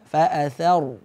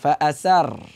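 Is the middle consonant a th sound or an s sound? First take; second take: th; s. First: The middle consonant is a th sound. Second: The middle consonant is an s sound. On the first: The speaker calls it right. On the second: The speaker calls it wrong.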